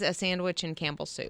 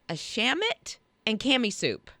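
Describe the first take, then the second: First: The words are pronounced clearly in standard form. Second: The words are slurred into a childlike pronunciation. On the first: This is what the words actually are. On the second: This is how a small child says it.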